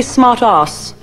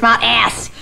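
First: "smart ass" with a long "ah" in ass; British pronunciation. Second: "smart ass" with a short, open "a" in ass; American pronunciation. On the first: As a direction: say "smart ass" slowly, ass rhyming with "pass" in British English. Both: Shown as a demonstration. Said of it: "you're supposed to say smart ass".

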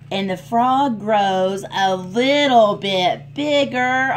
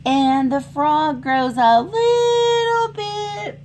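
First: Said in the usual way. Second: Half-sung, slow storybook line; sung, sing-song, drawn-out story chorus; sung refrain. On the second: A narrator's reading.

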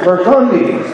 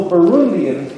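First: Burgundians with a clear hard g, ber-GUN-dee-uns; Burgundians, stressing GUN with the g sounded; corrected name. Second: Burundians, said without a g, like the country Burundi; wrong name. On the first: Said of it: "It's the Burgundians". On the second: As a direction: Burundians as buh-ROON-dee-uns, no g sound. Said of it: "I thought that was the Burundians". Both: Shown as a demonstration.

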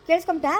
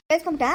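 No difference in how they are said.

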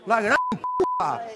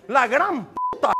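First: 2 "La gran puta" in a very high, slow squeal; 3 squeak out "La gran puta" in disbelief, slowly; 1 exasperated squeal. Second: Said in the usual way. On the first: Real, not acted. 4 host exasperated at guest, says "La gran puta" very high and slow.

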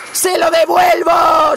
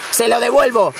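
First: Higher, louder, slowed-down yell; real victory shout; triumphant shout. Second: Said in the usual way. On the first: Real, not acted. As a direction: roar it as you strike back.

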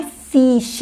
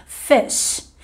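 First: "fish" com i tenso, como "fiish"; i longo errado. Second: "fish" com vogal breve, quase "fesh"; i curto. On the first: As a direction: diga "fish" com som de "ee". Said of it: "Inclusive, não é fish". ("fish" com i português bem agudo de timbre) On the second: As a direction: encurte o i de "fish" e solte o chiado. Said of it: "É um I só". ("fish" com i frouxo e sh longo) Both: Shown as a demonstration.

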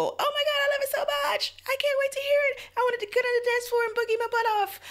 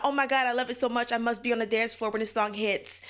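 First: Very high, fast, gushing squeal; breathless high-pitched fangirl gush; ecstatic squeal. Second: Lightly raised, casual retelling of a gush; a hint of excitement, mostly plain; understated imitation of a fan's gush; mild mock gush. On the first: Retold or imitated. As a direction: squeal it like you can't contain yourself. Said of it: "make you just, just go". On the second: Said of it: "It's not a".

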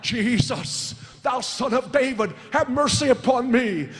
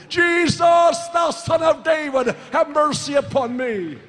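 First: Crying out. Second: Loud, high, drawn-out cry for mercy; Bartimaeus. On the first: Bartimaeus calling to Jesus as he passes, acted crying out. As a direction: act out a beggar's first call for mercy. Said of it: "He began to cry out". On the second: Bartimaeus crying to Jesus despite being told to stop, loud crying out. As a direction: shout it desperately over those hushing you. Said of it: "he cried even more loudly". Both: Acted.

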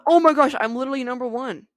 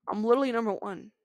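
First: High, loud thrilled exclamation; excited. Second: Said in the usual way. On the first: Real, not acted. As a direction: burst out with joy. Reaching first place.

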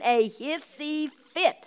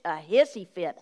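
First: "a hissy fit" drawn out very slowly and pitched up; "a hissy fit" said high, slow and emphatic; emphatic repeat. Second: Said in the usual way. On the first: Real, not acted. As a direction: stretch out each word of "a hissy fit".

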